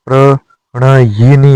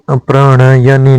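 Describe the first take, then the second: First: प्रणयिनी ending yi-nee; correct form. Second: प्रणयनी ending ya-nee; short a before nee in प्रणयनी; wrong form. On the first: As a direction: sound an i before nee in प्रणयिनी. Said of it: "होता है". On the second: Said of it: "नहीं होता". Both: Shown as a demonstration.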